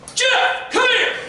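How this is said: It is barked harshly like a drill sergeant.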